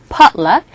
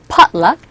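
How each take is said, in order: The two takes are said the same way.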